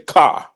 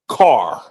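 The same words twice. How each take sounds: First: The final R sound is dropped. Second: The final R sound is pronounced. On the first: This is how Chicago speakers say it. "We drop that R off" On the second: This is how others say it, not Chicago speakers. "we don't say car"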